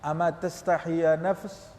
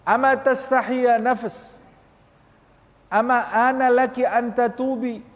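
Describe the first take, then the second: First: Said in the usual way. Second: Much higher, louder, slow reproach; impassioned Arabic rebuke of the self; fervent rebuke. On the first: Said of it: "sambil engkau berbicara". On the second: Shown as a demonstration. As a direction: cry out at your own soul. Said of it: "Tanya kepada nafsu kita".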